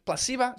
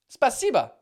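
First: "Spasiba" garbled as "plah-SEE-va", higher and questioning; unsure mispronunciation. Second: "Spasiba" said clearly as "spa-SEE-ba", falling; corrected pronunciation. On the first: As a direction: guess at "Spasiba" with pl- at the start and a v for the b. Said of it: "Something like that". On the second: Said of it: "I was close". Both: Real, not acted.

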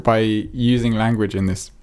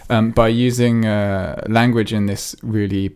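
First: Talking through a burp; words pushed out on a burp. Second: Said in the usual way. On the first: Real, not acted. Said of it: "red wine burp". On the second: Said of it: "excuse me".

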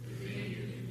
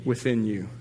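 First: Unvoiced whisper; whispered answer. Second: Said in the usual way. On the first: Real, not acted. Pastor whispers the answer to the congregation, then repeats it. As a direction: breathe it out, barely audible.

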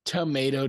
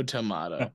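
First: Tomato said tuh-MAY-toe; Tomato with a long A, MAY. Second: Tomato said tuh-MAH-toe; tomato with a broad AH, MAH. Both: Shown as a demonstration.

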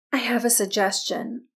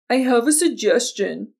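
First: Said in the usual way. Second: Mocking echo of a bossy castmate; exaggerated mimicry of someone else's suggestion; mimicking her tone. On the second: A narrator's reading. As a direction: parrot it back mockingly, a bit louder. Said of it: "mimicking Fawn's tone".

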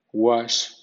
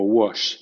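First: "wash" with an open ah, "wahsh". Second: "wash" with a rounded o, "wosh". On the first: Teacher giving first option for W A words, "wash" with open "wa". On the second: Teacher giving second option for W A words, "wash" with rounded "wo". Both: Shown as a demonstration. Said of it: "suena wa o wo".

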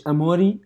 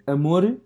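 First: Amori said with a final i, lightly rising; pronounced amori. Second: Amor said plainly, ending on r, no added vowel; pronounced amor. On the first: Listing versions of the pet name: amori with final i. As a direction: say amori, ending in a clear i sound. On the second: Listing versions of the pet name: plain amor. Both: Shown as a demonstration. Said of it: "três versões".

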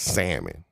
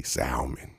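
First: SALMON as "SAMMON", no L at all; silent L. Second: SALMON with the L pronounced; sounded L. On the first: Shown as a demonstration. Correcting a friend, silent L in SALMON. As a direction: drop the L cleanly from SALMON. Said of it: "the L is silent". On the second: Retold or imitated. Quietly quoting a friend's mistake, L sounded in SALMON. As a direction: put an audible L into SALMON. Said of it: "I heard you say".

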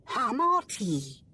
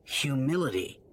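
First: Humility said as HAH-mah-tee, dropping the hyoo and the l; mispronounced. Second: Humility said as hyoo-MIL-ih-tee with a clear h and all syllables; correct pronunciation. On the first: A narrator's reading. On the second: Acted. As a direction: say humility carefully with the hyoo sound. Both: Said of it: "No, it's humility".

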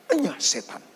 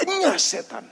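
First: Quiet rebuke. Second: Enyah setan pitched much higher, sharp; stern rebuke. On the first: Jesus rebuking Peter, quiet and cold. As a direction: say Enyah setan under the breath, cold. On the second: Jesus turning on Peter, pitched-up stern rebuke. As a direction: lift Enyah setan up high with force. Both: Acted. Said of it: "dan berkata kepada Petrus".

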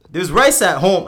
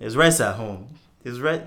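First: Loud Nigerian dad voice. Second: Put-on half Nigerian accent, louder. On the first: Retold or imitated. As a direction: bellow it like a strict Nigerian dad. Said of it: "I was trying to do my dad". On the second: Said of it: "you have to do it in a Nigerian accent".

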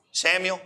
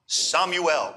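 First: Said in the usual way. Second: Samuel said the Hebrew way, Shmu-el-like with open 'ah'; Hebrew pronunciation. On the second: Shown as a demonstration. Pastor repeating a man's name in Hebrew, Samuel pronounced 'Sah-mu-el'.

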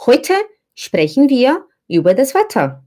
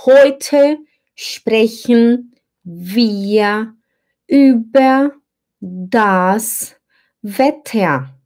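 First: Quick, run-together German sentence; fast German. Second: Very slow, word by word German; slow reading. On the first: Teacher showing how Germans say it fast. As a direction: rattle it off quickly like a native. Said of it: "Quando você fala rápido". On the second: Teacher reading slowly to the class, word by word. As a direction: spell it out slowly for the student. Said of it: "Digamos que eu leia devagar". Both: Shown as a demonstration.

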